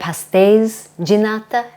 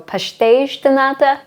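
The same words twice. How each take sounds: First: The end of pastéis has a plain s sound. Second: The end of pastéis has a shushing sound. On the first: This is the non-Azorean way of saying it. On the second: This is the Azorean way of saying it.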